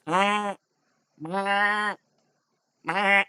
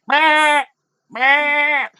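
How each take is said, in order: First: Higher-pitched, softer goat bleat; small spaced-out bleats from a goat. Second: Very high, loud screaming bleat; goat scream. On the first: Game master as goats spoiling the stealth, bleating. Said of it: "the goats are going like". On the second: Game master as the goat starting to scream, shrieking bleat. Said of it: "like, a goat scream". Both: Acted.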